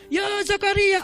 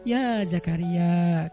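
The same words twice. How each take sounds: First: It is shouted loudly in a high pitch. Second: It is said calmly, without shouting.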